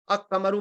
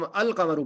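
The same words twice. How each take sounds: First: "अकमरु" with the l merged into a doubled k; wrongly joined. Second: "अल कमरु" with the l clearly sounded; correctly separated. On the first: Teacher showing learners what not to read, "अकमरु" joined up. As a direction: run the article into the k: "अकमरु". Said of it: "तो वो जुड़ के नहीं पढ़ता". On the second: Teacher showing the Tajweed rule, "अल कमरु" read with a distinct l. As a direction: keep "अल" apart from "कमरु". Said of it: "इसको हम अल कमरु पढ़ते हैं". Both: Shown as a demonstration.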